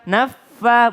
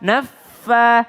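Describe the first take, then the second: No difference in how they are said.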